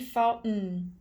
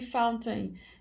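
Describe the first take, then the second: First: The middle T is stopped, not released. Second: The middle T is fully released. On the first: This is the everyday casual form. "e sim vai ouvir fountain" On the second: This is the formal form heard in songs. "no dia a dia você não vai ouvir fountain"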